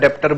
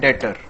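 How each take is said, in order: First: A b-like sound is pronounced. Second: The b sound is silent. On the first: The speaker calls it wrong. "कई बच्चे मैं सुनता हूं डेप्टर डेप्टर बोलते हैं" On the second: The speaker calls it right. "इसमें बच्चों बी silent होता है, इसका प्रोनाउंसिएशन है डेटर"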